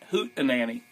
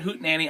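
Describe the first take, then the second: First: It is said with a middle vowel sound. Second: It is said without a middle vowel sound.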